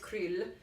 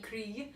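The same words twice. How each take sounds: First: The word ends with an L sound. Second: The word ends with a Y sound. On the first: "I think it's krill with an L" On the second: "it might be krill"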